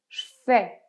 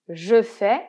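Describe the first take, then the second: First: The vowel of 'je' is dropped. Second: The vowel of 'je' is fully pronounced. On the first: "qu'on va très souvent dire je fais" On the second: "c'est je fais"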